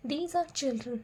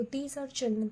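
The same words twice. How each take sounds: First: Said in the usual way. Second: Slow dictation read. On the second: Shown as a demonstration. Teacher slowly dictates a worksheet sentence to the class. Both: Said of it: "तो these are children".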